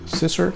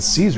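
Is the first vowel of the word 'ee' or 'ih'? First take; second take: ih; ee. First: The first vowel is a short 'ih' sound. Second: The first vowel is a long 'ee' sound. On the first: This is how the spelling suggests it. "but it's spelled S I S S E R" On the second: This is how the brand itself says it. "they pronounce it Caesar"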